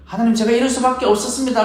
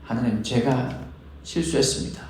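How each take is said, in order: First: Higher pitched, explaining yourself to God; defensive excuse. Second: Softer, falling, simply owning the mistake; humble confession. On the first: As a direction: plead your case, a little indignant. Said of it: "라는 설명이 아니라". (높은 톤으로 변명하듯) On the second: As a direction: admit it quietly before God. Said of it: "라는 고백인 거죠". (조용하고 겸손한 고백) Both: Retold or imitated.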